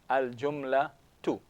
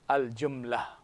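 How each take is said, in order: First: The word ends with a full 'tu' syllable. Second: The word ends on 'la' with silent h. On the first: This is the full written form with case ending. "the ending of the Nung will be a single Dhamma" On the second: This is how it is said in spoken Arabic. "they end at the previous letter with its vowel"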